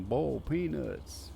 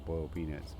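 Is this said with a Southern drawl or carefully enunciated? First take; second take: Southern drawl; enunciated. First: It is said with a Southern drawl. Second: The word boiled is carefully enunciated. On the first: "you just sounded super redneck right now" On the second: "I'm enunciating the word boiled on purpose"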